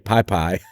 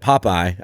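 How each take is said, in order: First: The first syllable sounds like 'pie'. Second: The first syllable sounds like 'pop'. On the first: This is how the speaker's family says it. "I say Pie Pie" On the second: This is how the other person says it. "You said Popeye"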